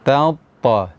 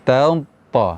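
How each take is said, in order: First: The first t is thin, the second heavy. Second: The first t is thin, the second heavy.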